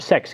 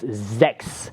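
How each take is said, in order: First: The word begins with a hissing S sound. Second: The word begins with a buzzing Z sound. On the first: The speaker calls it wrong. "the sound of the uh, German word six, but that's actually wrong" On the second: The speaker calls it right. "It's sechs with a Z sound"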